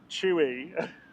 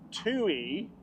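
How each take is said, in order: First: The name begins with a 'ch' sound. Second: The name begins with a clear 't' sound. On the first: The speaker calls it wrong. "not Chewy. ... my Manchester twang" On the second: The speaker calls it right. "it's Tui, like T O O dash E"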